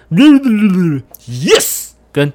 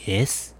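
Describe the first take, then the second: First: 'yes' hit hard and drawn out slowly; stressed yes. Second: 'yes' said softly and lifelessly; limp yes. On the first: Showing listeners a stressed English word, slow and hard. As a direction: punch 'yes' with full weight, very slow. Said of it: "重音跟轻音的感觉". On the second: Showing listeners an unstressed word, limp and soft. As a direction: let 'yes' fall out weak, no energy. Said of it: "你是没吃饭的哟？有气无力". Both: Shown as a demonstration.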